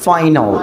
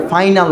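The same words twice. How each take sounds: First: "ফাইনাল" ending as rounded "nol"; correct pronunciation. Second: "ফাইনাল" with clear "nal" at the end; wrong pronunciation. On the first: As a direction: say "ফাইনাল" as "fai-nol", dark final l. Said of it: "ফাইনাল না উচ্চারণটা কী হবে". ("ফাইনাল", শেষে "নল" উচ্চারণ) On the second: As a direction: say "ফাইনাল" with an open a before l. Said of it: "না উচ্চারণটা কী হবে". ("ফাইনাল", শেষে "নাল" উচ্চারণ) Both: Shown as a demonstration.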